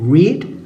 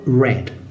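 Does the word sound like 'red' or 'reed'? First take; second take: reed; red. First: The vowel is long, sounding like 'reed'. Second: The vowel is short, sounding like 'red'. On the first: The action is in the present tense. "En presente se lee read" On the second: The action is in the past tense or participle. "en pasado y en participio red, más o menos como el color rojo"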